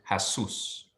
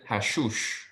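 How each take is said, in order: First: Hassus with plain hissed S sounds, no SH; correct S pronunciation. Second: Hashush with a SH sound at the end; student's mispronunciation. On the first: Shown as a demonstration. Teacher corrects student to hassus, clear S pronunciation. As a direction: say hassus, each S as in "sun". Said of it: "Like the S sound". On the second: Retold or imitated. Teacher echoes student's error in hashush, sh-sound mispronunciation. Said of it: "you pronounced it hashush".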